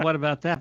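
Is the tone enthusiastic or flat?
flat. It is said in a flat, plain tone. "he could have said"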